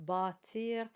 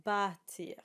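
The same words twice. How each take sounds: First: Put-on bâtir with a dark back â, the old way. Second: Bâtir with a front bright a, the modern way. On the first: Coach shows the older darker bâtir. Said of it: "made this a little darker". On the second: Coach models today's bâtir with a light a. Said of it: "now we would say bâtir". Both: Shown as a demonstration.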